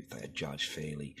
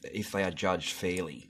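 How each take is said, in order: First: Softer, mocking mutter of the quote. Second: Said in the usual way. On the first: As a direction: sneer it back under your breath. Mocks the quote after swearing.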